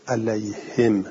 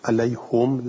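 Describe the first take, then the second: First: علیهم read alayhim, kasra under the ha; علیهم as ʿalayhim, the ha with i. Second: علیهم read alayhum, damma on the ha; علیهم as ʿalayhum, the ha with u. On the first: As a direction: say علیهم as alayhim, ending in -him. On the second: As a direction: say علیهم as alayhum, ending in -hum. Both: Shown as a demonstration. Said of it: "گفت که با ضمه بخونیم".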